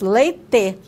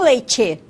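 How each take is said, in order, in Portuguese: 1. O t é simples, seguido do som de e. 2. O t é um som de ch, seguido de i. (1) "senão nós falaríamos leite" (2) "nós usamos a africada, o tchá"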